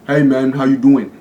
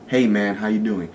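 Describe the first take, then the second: First: It sounds stiff and fake, like a game character. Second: It sounds natural, like real everyday talk.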